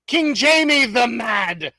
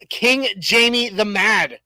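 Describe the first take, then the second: First: Slow, grand British announcement of the name; playful British accent, stretched out; hammed British accent. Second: Slow, lightly British reading of the name; a first go at a British lord; hint of a British accent, drawn out; mock British accent. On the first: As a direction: announce the king like a British herald. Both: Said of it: "I have to read it in a British accent".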